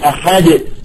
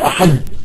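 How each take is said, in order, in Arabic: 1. الدال الأخيرة تُنطق بقلقلة. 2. الدال الأخيرة تتوقف بشكل مسطح دون قلقلة. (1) "فعندما تقلقل تقول" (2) "لا تقول أحد"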